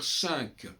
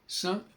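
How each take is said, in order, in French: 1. La consonne finale se prononce. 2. La consonne finale est muette. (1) "pourquoi est-ce qu'on doit dire cinq?" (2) "sans prononcer le Q"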